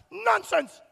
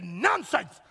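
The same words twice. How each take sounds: First: Jumps much higher on "nonsense"; mock dismissive "nonsense", pitched high; mocking disbelief. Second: Said in the usual way. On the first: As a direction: scoff it up high. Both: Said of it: "and they said".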